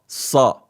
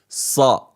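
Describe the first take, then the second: First: The s sound is heavy and strong. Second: The s sound is heavy and strong.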